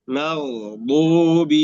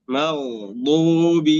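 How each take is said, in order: The two takes are said the same way.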